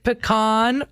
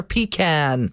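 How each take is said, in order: First: "pecan" with an AH in the stressed last syllable; puh-KAHN pronunciation. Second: "pecan" with a long EE, then CAN as in tin can; PEE-can pronunciation. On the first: Host posing the tree nut debate, puh-KAHN pronunciation of "pecan". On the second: Host offering the other side of the debate, PEE-can pronunciation of "pecan". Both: Shown as a demonstration. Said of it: "debate on how to pronounce".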